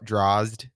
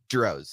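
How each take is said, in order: First: It ends in a 'zd' cluster. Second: It rhymes with 'rose' and ends in 'z'. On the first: "the way people mispronounce it" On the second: "it rhymes with rose"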